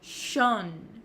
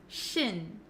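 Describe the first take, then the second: First: The ending has a rounded 'o' vowel. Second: The ending has a short 'i' vowel. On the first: The speaker calls it wrong. "a lot of students say shon, shon. They make that O sound" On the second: The speaker calls it right. "we actually pronounce it as shin, shin"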